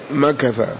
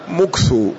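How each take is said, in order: First: The k is followed by an a vowel. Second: The k is followed by a u vowel. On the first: "بالميم والكاف المفتوحة" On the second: "بالميم المضمومة مكثو"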